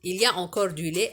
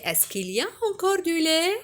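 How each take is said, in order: First: Said in the usual way. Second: "Est-ce qu'il y a encore du lait?" with the pitch climbing at the end; rising question tune. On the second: Shown as a demonstration. Teacher shows the class a rising question tune. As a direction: let "encore du lait" rise like a real question. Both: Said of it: "l'intonation de la phrase interrogative monte".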